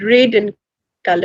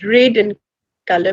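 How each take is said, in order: First: The vowel in red sounds like ay. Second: The same.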